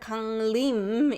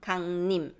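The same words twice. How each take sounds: First: The second syllable starts with a clear L sound. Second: The second syllable starts with an N sound. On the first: "the L sound is really articulate" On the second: "it becomes 강림, just 강림"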